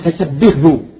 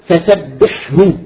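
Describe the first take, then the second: First: The h sound turns into a soft h. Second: The h sound is single and clear before hu. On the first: The speaker calls it wrong. "ربما تتحول إلى هاء فسبحه" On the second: The speaker calls it right. "مثال فسبحه"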